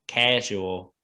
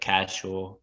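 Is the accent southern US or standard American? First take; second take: southern US; standard American. First: It is said in a southern US accent. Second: It is said in a standard American accent. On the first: "They're like regional, like southern southern U S. They say like cat casual" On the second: "instead of casual"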